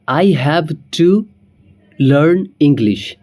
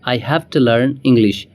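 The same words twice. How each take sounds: First: Have to is said as two full words. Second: Have to is merged into one word, hafta.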